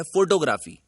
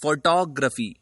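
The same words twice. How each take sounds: First: फोटोग्राफी said the common wrong way, stress on the first syllable; the mispronounced फोटोग्राफी, said the way people get it wrong; wrong pronunciation. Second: फोटोग्राफी said the correct way, stress on the second syllable; the right फोटोग्राफी, said carefully as the model; correct pronunciation. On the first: Teacher showing students the common mistake in फोटोग्राफी. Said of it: "एक शब्द है जो बहुत ज्यादा गलत बोला जाता है". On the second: Teacher demonstrating the correct फोटोग्राफी to learners. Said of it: "जो शब्द का सही उच्चारण है". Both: Shown as a demonstration.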